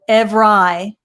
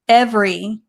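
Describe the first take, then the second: First: The word is said with a deliberately distorted sound. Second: The word is said in its standard form. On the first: The speaker calls it wrong. "I'm going to mispronounce it uh, on purpose" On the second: The speaker calls it right. "It said good job"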